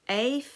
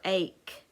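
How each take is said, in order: First: The word ends with an F sound. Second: The word ends with a K sound.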